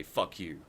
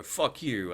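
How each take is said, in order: First: Said in the usual way. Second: Louder, higher snap of fuck you with fuck hit hard; mock angry retort. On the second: A bigot swearing back at him, mock loud snap.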